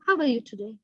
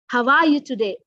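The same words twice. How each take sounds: First: It sounds like a polite, routine formality. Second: It sounds warm and genuinely interested.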